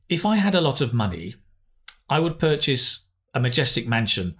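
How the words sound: The phrases are split by clear pauses. The speaker calls it right. "but now let's try and improve that"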